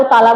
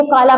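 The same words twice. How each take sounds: First: ताला, K replaced by T; child's lisp. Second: Said in the usual way. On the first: Shown as a demonstration. Teacher recalls the lisping example, T-for-K ताला. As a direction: say काला as ताला, with T up front. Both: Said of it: "देखा lisping में".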